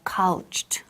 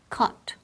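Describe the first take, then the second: First: It is said with extra sounds, not plain 'kot'. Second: It sounds simply like 'kot'. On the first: The speaker calls it wrong. "or couched" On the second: The speaker calls it right. "casi como si fuera K o T"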